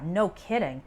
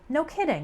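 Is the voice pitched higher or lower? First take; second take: lower; higher. First: It is said in a lower, sarcastic tone. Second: It is said in a higher, surprised tone. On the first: The point is very obvious. "you use a bit of a lower tone of voice" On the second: The news is a little surprising. "in a bit of a higher tone"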